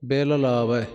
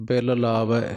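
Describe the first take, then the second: Both takes have the same delivery.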